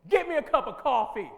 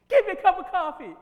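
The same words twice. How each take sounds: First: Loud, rude command for coffee; demanding order. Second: Much higher, very loud, unhinged; psycho. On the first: Teacher demos a rude, loud coffee order. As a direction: bark the order like a boss. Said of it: "now watch this one". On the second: Teacher shows class a crazed, screaming coffee order. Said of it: "What did I just communicate that time?". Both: Shown as a demonstration.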